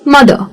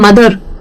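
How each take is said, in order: First: The final r is silent, British style. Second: The final r is clearly pronounced, Indian style.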